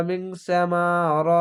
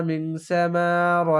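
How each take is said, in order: Both takes have the same delivery.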